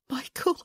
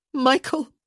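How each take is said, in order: First: High, hushed, frightened call; fearful whisper. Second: High, loud, alarmed call; louder, panicked. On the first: Woman to the man gripping her, fearful and hushed. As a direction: say the name small and afraid. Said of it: "she whispered, hearing something awful in her voice". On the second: Woman to the man who won't let go, panicked. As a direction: call the name sharply in panic. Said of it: "her voice was louder, panicked". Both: A narrator's reading.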